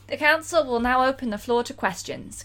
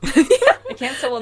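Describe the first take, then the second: First: It is read in the reader's own accent. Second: It is read in an Australian accent.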